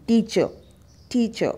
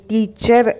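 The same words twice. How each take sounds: First: टीचर as TEE-chuh, R dropped; correct pronunciation. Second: टीचर slowly with a sounded final R; wrong pronunciation. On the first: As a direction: model टीचर with a silent, falling ending. (टीचर का सही उच्चारण, र silent) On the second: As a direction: show टीचर with the R pronounced. (टीचर का गलत उच्चारण, र के साथ) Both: Shown as a demonstration. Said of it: "टीचर नहीं".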